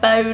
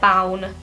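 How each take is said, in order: First: The name sounds like the word bone. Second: The name has a different vowel from bone. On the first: "Is it like bone" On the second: "or is it bown?"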